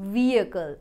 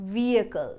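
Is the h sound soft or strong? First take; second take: soft; soft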